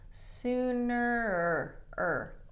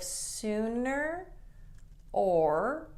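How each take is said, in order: First: The word 'or' is reduced to an R sound. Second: The word 'or' is said fully and separately. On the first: The speaker calls it right. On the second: The speaker calls it wrong.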